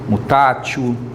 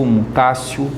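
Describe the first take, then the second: First: The consonant before -io is a t sound. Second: The consonant before -io is an s sound.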